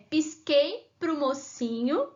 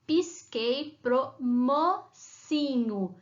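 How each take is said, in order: First: Said in the usual way. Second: "pisquei pro mocinho" very slow, ending mo-ci-nho; syllable by syllable. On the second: Shown as a demonstration. Teacher repeating the rhyme for pupils, syllables pulled apart. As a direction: spell out "mocinho" in separate drawn-out syllables. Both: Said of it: "Onde tá a sílaba".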